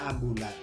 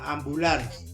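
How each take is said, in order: First: The word ends without an s sound. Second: The word ends with an s sound. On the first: This is the non-standard form. The speaker calls it wrong. "Yang tidak bakunya ambulan" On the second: This is the standard form. The speaker calls it right. "itu pakai S belakangnya"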